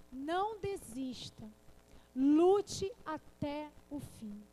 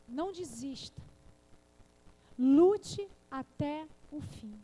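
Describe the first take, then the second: First: Lute até o fim drawn out slowly and louder, each word pressed; preacher pressing the words home; slow emphatic exhortation. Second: Lute até o fim stretched out slowly and much louder, each word hammered; preacher's drawn-out battle cry; slow emphatic exhortation. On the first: Preacher repeats her exhortation. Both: Acted.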